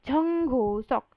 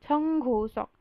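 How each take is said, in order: The two takes are said the same way.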